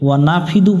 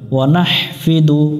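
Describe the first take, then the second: First: No h sound is heard before the f. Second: An h sound is heard before the f. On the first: The speaker calls it wrong. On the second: The speaker calls it right.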